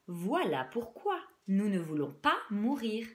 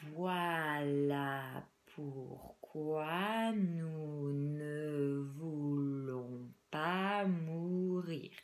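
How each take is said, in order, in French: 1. Chaque syllabe est prononcée avec une clarté exagérée. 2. La phrase est dite très lentement. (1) "en surarticulant" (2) "On va les dire très lentement"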